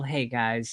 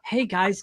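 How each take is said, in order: First: It is said in a flat, low-energy tone. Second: It is said in a lively, energetic tone. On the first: The listener is given no reason to care. The speaker calls it wrong. "How interested are you in about cholesterol with that tone of voice?" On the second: The listener is drawn in and made curious. The speaker calls it right. "just by even me changing my tone, you're a lot more interested"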